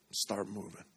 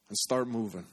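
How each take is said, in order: First: "Start moving" repeated much softer, falling; soft echo. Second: Said in the usual way. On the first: Shown as a demonstration. Pastor echoing his own call to the congregation, softly. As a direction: let "Start moving" echo back quietly.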